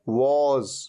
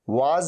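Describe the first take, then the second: First: The vowel is a short rounded 'o'. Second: The vowel is an open, long 'aa'. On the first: The speaker calls it right. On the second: The speaker calls it wrong.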